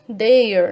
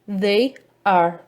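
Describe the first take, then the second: First: It is said contracted into one short syllable. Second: It is said as two full separate words.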